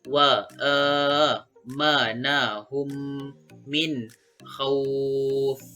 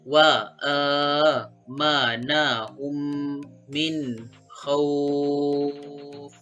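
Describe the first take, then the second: First: The final vowel is held for four counts. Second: The final vowel is held for six counts. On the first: "Itu bagi empat kali harakat" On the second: "Itu pula bagi enam kali harakat ataupun enam kali panjang"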